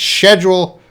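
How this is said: It is said with a British pronunciation. "British pronunciation is schedule"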